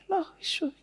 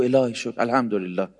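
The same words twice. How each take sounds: First: High thin put-on pious voice; mock fake piety; thin affected voice. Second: Said in the usual way. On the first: Shown as a demonstration. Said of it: "صداش نازک یعنی این". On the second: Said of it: "مثل آدم بگو".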